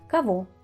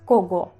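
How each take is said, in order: First: It is said with changed sounds, not letter by letter. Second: It is read exactly letter by letter. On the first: The speaker calls it right. "Pero es cabo" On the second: The speaker calls it wrong. "si lo leemos literalmente es cogo"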